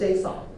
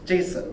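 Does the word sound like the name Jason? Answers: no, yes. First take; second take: no; yes. First: It does not sound like the name Jason. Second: It sounds like the name Jason. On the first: This is how foreign speakers say it. "all basically all foreigners call it JSON" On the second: This is the speaker's own habitual pronunciation. "I call J, Jason"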